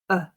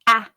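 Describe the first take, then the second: First: The word is reduced to a schwa sound. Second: The word has a full vowel sound. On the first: "I'll read both the strong and the weak form" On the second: "I'll read both the strong and the weak form"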